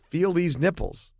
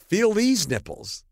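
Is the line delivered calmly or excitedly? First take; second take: calmly; excitedly. First: The line is said in a calm, flat way. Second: The line is said with excited energy. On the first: The speaker calls it right. "no, you have to say" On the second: The speaker calls it wrong. "he did the wrong inflection. He said, you're excited"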